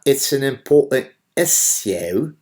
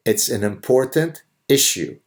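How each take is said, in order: First: "issue" said the British way, "iss-yoo", a bit higher; mock the British "issue" in a put-on accent. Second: "It's an important issue" with a plain American "issue". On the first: Commentator mocks a British host's "issue" in a put-on British accent. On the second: Shown as a demonstration. Commentator shows how Americans say "issue", plain American vowels.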